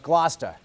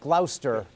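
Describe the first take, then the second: First: The middle syllables are dropped, giving two syllables. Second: Every syllable of the spelling is pronounced. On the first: The speaker calls it right. "No, no, that's" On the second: The speaker calls it wrong. "what would look like"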